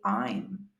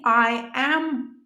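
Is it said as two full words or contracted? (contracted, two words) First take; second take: contracted; two words. First: The two words merge into one short syllable. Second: Both words are said in full, separately. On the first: "you actually say I'm" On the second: "instead of saying I am all the time"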